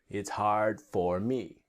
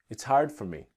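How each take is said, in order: First: It is spoken slowly with a full 'for'. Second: It is spoken quickly with a reduced 'for'.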